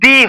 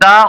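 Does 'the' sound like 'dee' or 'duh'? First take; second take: dee; duh. First: The vowel is a front 'ee' sound. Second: The vowel is a short open 'uh' sound. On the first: The speaker calls it right. "সেটার উচ্চারণ দি হয়" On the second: The speaker calls it wrong. "সেটার উচ্চারণ কিন্তু দা হয় না"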